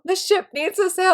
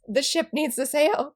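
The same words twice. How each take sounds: First: Emphatic plea. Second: Said in the usual way. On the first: Retold or imitated. Repeats plea for the ship.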